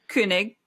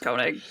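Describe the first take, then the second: First: The first vowel is a rounded umlaut 'ö'. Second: The first vowel is a plain American 'o'. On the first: This is the original way of saying it, with the umlaut. "how do you say it with the umlauts?" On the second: This is the simplified American way of saying it. "for American people, it's just Koenig"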